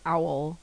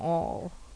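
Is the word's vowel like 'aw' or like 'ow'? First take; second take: ow; aw. First: The vowel sounds like 'ow', as in owl. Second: The vowel sounds like 'aw', as in law. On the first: This is how others said the word. "according to New Yorkers who said owl" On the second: This is how the speaker says the word. "So I call it an awl"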